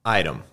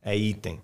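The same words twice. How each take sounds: First: "item" said the English way, like "aidem". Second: "item" read as Portuguese "itẽ", as written. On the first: Teacher gives the student the English word "item" in English. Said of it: "A palavra vai ser". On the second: Teacher contrasts "item" read as if it were Portuguese. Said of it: "Como se escreve item em inglês?". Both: Shown as a demonstration.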